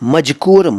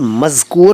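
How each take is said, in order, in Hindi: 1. 'ma' के बाद का व्यंजन j ध्वनि है। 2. 'ma' के बाद का व्यंजन z ध्वनि है। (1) "मजकूर, मजकूरा, मजकूरी नहीं है। ठीक बोला करो" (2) "ये मज़कूर, मज़कूरा और मज़कूरी हैं।"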